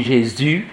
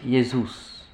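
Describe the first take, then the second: First: "Jésus" as JÉ-ZU, French J, silent S. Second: "Jesus" as YÉ-zous, final S sounded; Latin Jesus. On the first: Teacher contrasts French for class, JÉ-ZU. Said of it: "nous, on dit". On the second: Teacher contrasts Latin for class, YÉ-zous. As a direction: say "Jesus" with Y start and OU vowel. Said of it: "Et les latins disent Jesus". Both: Shown as a demonstration.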